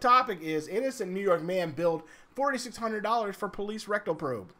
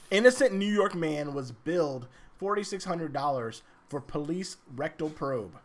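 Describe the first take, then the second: First: It is said fast. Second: It is said slowly.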